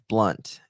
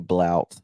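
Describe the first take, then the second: First: The vowel sounds like the one in up. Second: The vowel sounds like the one in out. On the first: The speaker calls it right. "It's blunt" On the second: The speaker calls it wrong. "I'm saying it wrong. I say blout"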